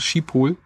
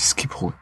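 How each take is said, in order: First: It is said as a German reader would. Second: It is said imitating the Dutch pronunciation. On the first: This is how the written name is first read. The speaker calls it wrong. "Man liest halt erstmal Schiphol" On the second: This is how locals there say it. The speaker calls it right. "so zu wiederholen, wie es dort gesprochen wurde"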